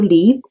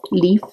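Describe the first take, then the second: First: "leaf" with the final f left off; dropped final consonant. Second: "leaf" with a clearly sounded final f; final consonant pronounced. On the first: Italian art teacher naming the leaf's edge, final f of "leaf" skipped. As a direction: say "leaf" as "lee", no f at the end. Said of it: "I skip them". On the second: Italian art teacher correcting her skipped final, "leaf" with full f. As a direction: repeat "leaf" on its own, finishing on an audible f. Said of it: "finals too much". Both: Real, not acted.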